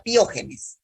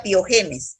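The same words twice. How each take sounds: First: "piógenes" drawn out slowly with the accent on the O; stress on the O. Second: The wrong stress in "piógenes", not on the O; "piógenes" as the mistake to avoid, accent misplaced; mispronounced piógenes. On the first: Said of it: "Acento en la, en la O". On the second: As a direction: say "piógenes" with the stress off the O, as the student did. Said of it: "No diga piógenes". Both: Shown as a demonstration.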